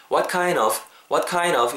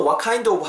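First: "what kind of" run together as "what kine-uv"; linked reduced form. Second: "what kind of" with the d fully sounded; full form. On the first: Teacher showing the natural option, "what kind of" linked without d. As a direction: drop the d and link "what kind of". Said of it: "이렇게도 발음할 수 있다라는". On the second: Teacher showing the acceptable full form, "what kind of" with its d. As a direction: say each word in "what kind of", keeping the d. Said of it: "하셔도 되지만". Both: Shown as a demonstration.

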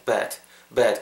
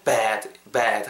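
First: "bad" said short, with the vowel of bed. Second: "bad" with a long, wide open vowel; wide, drawn-out bad. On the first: Teacher giving the tip for bed, "bad" short and unstretched. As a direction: keep "bad" brief and relaxed, sounding like bed. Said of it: "그 짧게". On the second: Teacher showing the bad vowel, "bad" wide and lengthened. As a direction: stretch the mouth sideways on "bad". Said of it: "이렇게 좀 입을 양옆으로". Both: Shown as a demonstration.

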